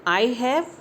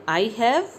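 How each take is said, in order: The two takes are said the same way.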